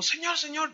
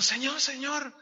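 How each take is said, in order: First: Put-on high, eager child's call; little girl calling. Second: Put-on little girl calling. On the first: Girl tugs the preacher's sleeve, high eager calling. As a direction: tug at him with a small voice. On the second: Girl repeats her call to the preacher, high and eager. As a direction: call him again like a small girl.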